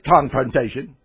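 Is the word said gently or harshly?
harshly. The word is said sharply and harshly. The speaker is attacking the other person. The speaker calls it wrong. "Don't say confrontation"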